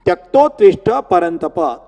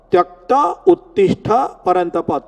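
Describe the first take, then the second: First: Said in the usual way. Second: "Tyakta Uttishta" as two separate words; words split apart. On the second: Shown as a demonstration. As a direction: break the joined sound into "Tyakta", then "Uttishta". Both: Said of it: "the word is Tyakta and Uttishta".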